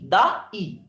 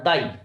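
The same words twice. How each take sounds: First: "दा ई" broken into two separate beats, दा then ई; split into syllables. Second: Said in the usual way. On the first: Shown as a demonstration. Teacher showing students two syllables, "दा ई" pulled apart. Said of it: "यहीं पर दो syllable हैं". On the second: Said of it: "ये एक syllable नहीं".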